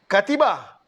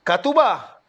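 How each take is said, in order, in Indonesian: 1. Vokal setelah t adalah i. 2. Vokal setelah t adalah u. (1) "jangan katiba, salah" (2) "Jangan katuba"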